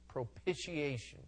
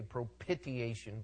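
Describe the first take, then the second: First: The middle consonant sounds almost like 'sh'. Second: The middle consonant has no 'sh' sound. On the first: The speaker calls it right. "It's almost like an SH in there" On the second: The speaker calls it wrong. "you'll get some people say propitiation"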